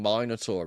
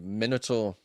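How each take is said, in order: First: The word is said the British way. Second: The word is said the American way. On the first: "English English is God's English" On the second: "in America they say Minotaur"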